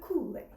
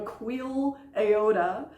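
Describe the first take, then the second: First: The first part sounds like 'cool'. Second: The first part sounds like 'queel'. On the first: The speaker calls it right. "we say the, the Kool-Aid" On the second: The speaker calls it wrong. "it's going to look like it says the Queel Aoda, but in fact, that's not how it's said"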